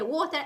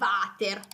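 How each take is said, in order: First: It is pronounced with English sounds. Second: It is pronounced with Italian sounds. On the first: It means the drinking liquid. "in inglese ovviamente water è l'acqua" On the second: It means the toilet bowl. "lo si pronuncia con una pronuncia tutta italiana"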